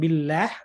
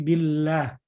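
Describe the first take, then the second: First: The word is said with a light, thin sound. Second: The word is said with a heavy, thick sound. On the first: The speaker calls it wrong. "Bukan billah" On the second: The speaker calls it right. "tapi billah. Tebal Ibu"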